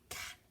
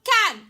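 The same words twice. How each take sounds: First: The word is whispered. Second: The word is shouted loudly.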